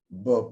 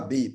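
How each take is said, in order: First: A bare consonant sound with no vowel. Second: A consonant followed by a vowel sound. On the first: The speaker calls it right. "on dit A, B" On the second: The speaker calls it wrong. "pas B, parce que B, ça fait deux sons"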